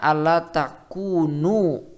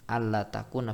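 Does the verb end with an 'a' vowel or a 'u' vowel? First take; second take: u; a. First: The verb ends with a short 'u' vowel. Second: The verb ends with a short 'a' vowel. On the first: The particle is a lightened form and does not govern the verb. "kalau takunu berarti annya di sini adalah an mukhaffafah" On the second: The particle governs the verb in the subjunctive case. "dibaca nasab takuna"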